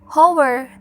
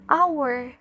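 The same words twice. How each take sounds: First: The word begins with an h sound. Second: The word begins with a vowel sound. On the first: The speaker calls it wrong. "bukan hour" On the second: The speaker calls it right. "tapi hour. Maka dia kan huruf hidup nih"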